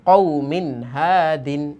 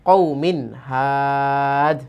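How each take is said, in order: First: The last word keeps its full ending, hadin. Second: The last word is cut short to had. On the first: The reading continues without stopping. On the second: The reader stops at this word.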